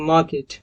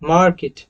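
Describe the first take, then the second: First: It is said in a British accent, without r. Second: It is said in an American accent, with r. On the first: "अगर इसको British accent में बोलना है तो" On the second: "ये जो मार्केट जो मैंने अभी बोला वो अमेरिकन एक्सेंट का था।"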